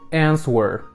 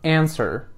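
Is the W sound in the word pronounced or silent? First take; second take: pronounced; silent. First: The W sound is pronounced. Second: The W sound is silent. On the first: The speaker calls it wrong. "I got a mistake" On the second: The speaker calls it right. "Now that was better"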